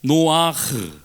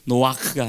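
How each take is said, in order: First: It ends with a raspy throat h sound. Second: It ends with a hard, strong k sound. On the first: The speaker calls it right. "약간 이천장을 긁으면서 흐 발음을 내는 거" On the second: The speaker calls it wrong. "키역 받침을 너무 세게 하면 안 돼요"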